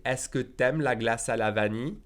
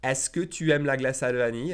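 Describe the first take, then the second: First: "t'aimes" merged into one syllable; casual "t'aimes" with no "u" sound; dropped U. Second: Said in the usual way. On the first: Shown as a demonstration. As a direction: elide the U in "t'aimes". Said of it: "I'll drop that U again". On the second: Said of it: "if I say it faster".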